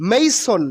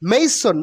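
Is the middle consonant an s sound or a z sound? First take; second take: s; s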